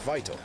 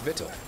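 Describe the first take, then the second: First: The first syllable has a long 'vie' vowel. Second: The first syllable has a short vowel. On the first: The speaker calls it right. "You'd say this is vital" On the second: The speaker calls it wrong. "you wouldn't say that it's vital"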